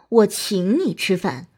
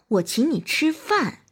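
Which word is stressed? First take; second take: 请; 饭. First: The stress is on the word 请. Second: The stress is on the word 饭. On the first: "突出请" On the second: "突出饭"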